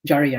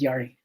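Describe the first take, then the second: First: The name begins with a J sound. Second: The name begins with a Y sound. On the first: The speaker calls it right. "but it's with a J" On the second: The speaker calls it wrong. "I keep saying it with a Y"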